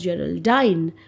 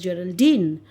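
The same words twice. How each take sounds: First: The last syllable rhymes with line. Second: The last syllable does not rhyme with line. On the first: "which would rhyme with line" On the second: "many of us we pronounce Geraldine as Geraldine"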